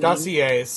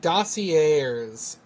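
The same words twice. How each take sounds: First: The word is pronounced differently from its spelling. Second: The word is pronounced just as it is spelled. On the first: The speaker calls it right. "I think, is the word" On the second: The speaker calls it wrong. "I think I said it wrong. I said it how it's spelled"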